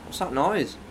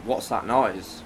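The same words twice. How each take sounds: First: "What's that noise?" as an exaggerated game catchphrase; game-title inflection. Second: Said in the usual way. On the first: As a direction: put on a raised, theatrical lilt for "What's that noise?". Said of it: "I also hate the inflection you put on there". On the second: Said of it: "the inflection you put on there".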